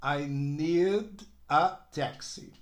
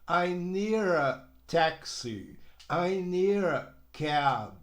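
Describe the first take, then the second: First: Need ends on a clear D before a; I need a taxi with a crisp D in need; clear final D. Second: Need a linked as nee-ra; slow, with the D in need flapped like an R into a; American flap. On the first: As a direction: keep the D in need separate from a. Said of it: "O D é assim, ó, D". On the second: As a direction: say need a as one flowing nee-ra. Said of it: "Olha a pronúncia como é que fica". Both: Shown as a demonstration.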